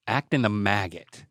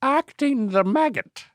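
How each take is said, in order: First: Said in the usual way. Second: High-pitched Irish echo; silly, high Irish lilt; mock Irish accent. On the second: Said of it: "You gotta use an Irish accent".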